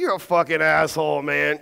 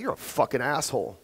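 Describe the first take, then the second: First: Playful, buddy-to-buddy jab; friendly teasing. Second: Low, cold, cutting delivery; harsh insult. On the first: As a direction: say it like a joke between friends. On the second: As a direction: say it like you mean the insult. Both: Shown as a demonstration. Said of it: "you see the difference?".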